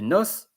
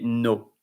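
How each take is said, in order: First: The final s is pronounced. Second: The final s is silent. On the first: The speaker calls it wrong. "you don't say nos" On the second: The speaker calls it right. "you say no"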